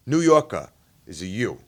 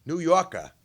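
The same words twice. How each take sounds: First: "New Yorker" said with a New York "U" sound; "New Yorker" as a New Yorker says it; New York vowel. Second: "New Yorker" with a broad "ah" sound; Boston vowel. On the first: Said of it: "in a New York accent". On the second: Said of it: "is an A H". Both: Shown as a demonstration.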